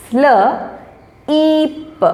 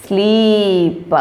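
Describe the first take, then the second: First: "Sleep" stretched long, vowel sliding, pitched up; drawn-out sleep. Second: Said in the usual way. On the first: Shown as a demonstration. Teacher modelling the word for the class, drawn-out "Sleep". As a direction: model "Sleep" slowly for the children, drawing the vowel out. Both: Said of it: "teacher models word for class".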